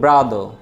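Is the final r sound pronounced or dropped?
dropped. The final r sound is dropped. "এটাকে ব্রিটিশে বলবো ব্রাদার"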